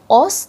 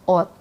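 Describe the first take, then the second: First: The word ends with an s sound. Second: The word ends with a t sound. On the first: The speaker calls it wrong. "bukannya dibacanya jadi os" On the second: The speaker calls it right. "tapi jadinya ot"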